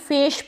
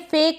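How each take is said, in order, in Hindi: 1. शब्द sh की आवाज़ से खत्म होता है। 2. शब्द k की आवाज़ से खत्म होता है। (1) "ना ही फेश पढ़ेंगे" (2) "फेक नहीं पढ़ेंगे"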